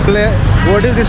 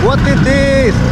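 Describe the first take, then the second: First: It is said in the speaker's usual Indian accent. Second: It is said imitating the local Thai accent. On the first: This is how the speaker normally says it. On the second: This is how local people say it, so they understand.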